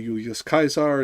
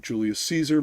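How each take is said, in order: First: Julius Caesar said the Roman way, as YOO-lee-us KY-sar; classical Latin pronunciation. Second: Said in the usual way. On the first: Shown as a demonstration. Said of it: "I will try to pronounce things as best I can within their". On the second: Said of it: "instead of Julius Caesar".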